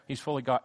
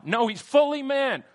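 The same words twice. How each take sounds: First: Said in the usual way. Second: "fully" punched high and loud; stress on fully. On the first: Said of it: "That's what we're emphasizing here". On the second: Shown as a demonstration. Preacher correcting the congregation, "fully" stressed hard. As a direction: insist on "fully", rising. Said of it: "emphasizing he's fully man".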